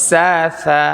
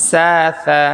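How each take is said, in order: No difference in how they are said.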